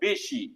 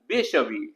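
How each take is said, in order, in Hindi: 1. शब्द छोटे रूप में बोला गया है। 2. शब्द पूरे रूप में बोला गया है।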